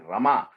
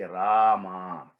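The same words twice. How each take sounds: First: The first vowel is short. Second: The first vowel is drawn out long. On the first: The speaker calls it wrong. "you don't say Rama" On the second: The speaker calls it right. "the Ra is extended a little bit"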